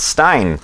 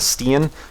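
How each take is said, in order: First: The name's vowel sounds like 'eye'. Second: The name's vowel sounds like 'ee'. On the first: The speaker calls it right. "but it's Stein" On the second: The speaker calls it wrong. "I mispronounced his name as Steen"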